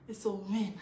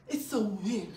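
The two takes are said the same way.

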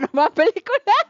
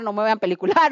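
First: Giggling through no me voy a pelicular; laughing repeat. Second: Said in the usual way. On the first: Real, not acted. Laughing at herself while telling the group, laughing repeat.

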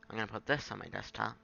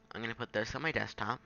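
The two takes are said the same way.

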